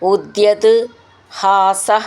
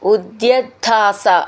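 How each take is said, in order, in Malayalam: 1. ഈ രണ്ട് വാക്കുകൾ വേറെ വേറെയാണ് പറയുന്നത്. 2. ഈ രണ്ട് വാക്കുകൾ ചേർത്ത് ഒന്നാക്കി പറയുന്നു.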